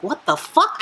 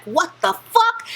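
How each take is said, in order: First: Said in the usual way. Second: Much higher, slow, stunned disbelief; shocked. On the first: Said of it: "and she's like". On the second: Retold or imitated. Heroine starts to burn at a stranger's touch, stunned and high. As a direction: drag it out in horrified disbelief. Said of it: "She's like".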